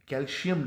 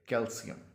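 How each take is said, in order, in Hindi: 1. बीच का व्यंजन 'sh' ध्वनि है। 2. बीच का व्यंजन साधारण 's' ध्वनि है। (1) "इसमें एस या एच की कहीं साउंड नहीं है, कैल्शियम नहीं है ये" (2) "ये है कैल्शियम"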